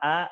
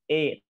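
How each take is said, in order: First: The vowel sounds heavy, thick and pressed out. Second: The vowel drifts toward an e sound. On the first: "Bukan A" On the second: "bukan E"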